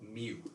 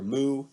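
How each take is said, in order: First: The vowel sounds like a kitten's mew. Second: The vowel sounds like a cow's moo. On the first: "the kitten" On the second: "the cow"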